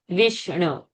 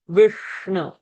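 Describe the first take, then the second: First: The sh sound is plain, tongue not curled. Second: The sh sound is retroflex, tongue curled back. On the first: The speaker calls it wrong. "Not Vishnu" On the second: The speaker calls it right. "Given that half Shakara has to go Murdhani"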